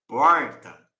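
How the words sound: The R is a curled-tongue sound. This is how it is said in inland São Paulo. "no interior de São Paulo, não fala porta. Eles vão falar porta"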